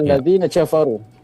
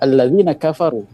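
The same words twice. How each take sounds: First: Kafaru begins with a j sound. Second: Kafaru begins with a k sound. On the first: This is how Moroccans say it. "Orang Maroko, kaf berubah jadi jim" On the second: This is how Egyptians say it. "kalau orang Mesir bisa bilang"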